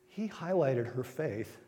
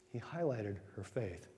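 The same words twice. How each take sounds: First: Slowed, weighty statement; slow sermon emphasis; slow emphatic. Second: Soft echo. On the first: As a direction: lay down every word deliberately. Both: Shown as a demonstration.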